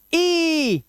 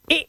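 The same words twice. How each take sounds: First: ई held long and high; drawn-out, higher ई; long vowel sound. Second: ई cut very short; brief ई with no held vowel; short vowel sound. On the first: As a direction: stretch ई into a high "eee". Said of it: "what is long vowel sound". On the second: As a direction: say ई as a quick "i". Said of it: "short vowel sounds". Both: Shown as a demonstration.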